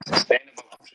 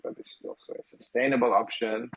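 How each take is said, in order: First: Sustainable punched higher and louder; stress on sustainable. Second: Said in the usual way. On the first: Real, not acted. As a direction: hit the word Sustainable hard, falling. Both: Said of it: "as we could hear twice".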